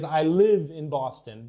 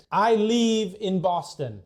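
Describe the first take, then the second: First: "live" said with a short, lax i as in "give". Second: "live" with a long, drawn-out ee, like "leave"; LIVE mispronounced as leave. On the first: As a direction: keep the vowel in "live" short, unlike "leave". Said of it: "But what you wanna say is". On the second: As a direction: stretch the vowel in "live" to sound like "leave". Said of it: "Oh, you're gonna leave". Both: Shown as a demonstration.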